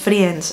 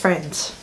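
First: The i is sounded as its own vowel. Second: The i is silent, not sounded at all. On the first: The speaker calls it wrong. "no le digáis Friends" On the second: The speaker calls it right. "es Friends. La I es muda"

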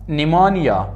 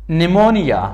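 The two takes are said the same way.

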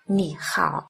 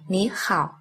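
First: The first syllable has a low dipping tone. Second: The first syllable has a rising tone. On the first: "Khi hai thanh ba đi liền nhau" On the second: "thanh thứ nhất đọc thành thanh hai"

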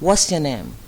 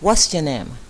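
First: The words are run together with a contraction. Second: The same.

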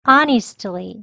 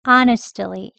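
First: The middle syllable is pronounced fully. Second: The middle syllable is weakened and reduced.

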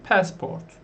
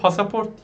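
First: The word is said with two syllables. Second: The word is said with three syllables. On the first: The speaker calls it right. "Ne olması lazım? Passport. Yani şurasını pass şeklinde okuyorsunuz" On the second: The speaker calls it wrong. "pasaport diye okumayın. Yanlış olur"

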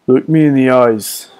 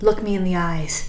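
First: It is said in a put-on character voice. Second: It is said in the speaker's normal voice.

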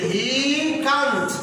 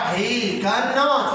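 First: The negative is shortened into one contracted word. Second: The negative is said in full as separate words.

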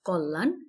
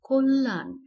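First: The first vowel sounds like an open 'a'. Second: The first vowel sounds like a rounded 'o'. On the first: "এরপরে রয়েছে কল্যাণ" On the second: "সঠিক উচ্চারণ কল্যাণ"

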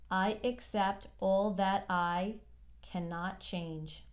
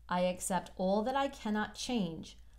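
First: It is read more slowly. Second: It is read at a normal pace. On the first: "I'm going to read it again slower" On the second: "I'm going to read this mantra"

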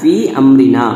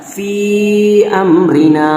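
First: The vowel is said short, without lengthening. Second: The vowel is stretched out and held longer. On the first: "நம்ம நார்மலா ஓதுனா ஃபீ அம்ரினா அவ்வளவுதான் வரும்" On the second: "இது சின்ன மத்து இருக்கிறனால ஃபீ அம்ரினா"

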